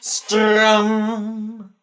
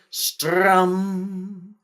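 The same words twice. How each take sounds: First: It is said as loudly as possible. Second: It is said at moderate volume.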